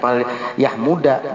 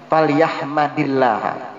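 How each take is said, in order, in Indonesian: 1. Vokal setelah 'yahm' adalah bunyi 'u'. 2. Vokal setelah 'yahm' adalah bunyi 'a'. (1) "Kalau nggak ada ilmunya ya inti baca pal yahmuda" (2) "Itu lamul amr... dari hamida yahmadu"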